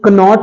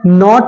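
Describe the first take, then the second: First: A K sound is heard before the N. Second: The word starts straight with the N sound. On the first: The speaker calls it wrong. "कनॉट नहीं है" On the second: The speaker calls it right. "इसमें के silent है"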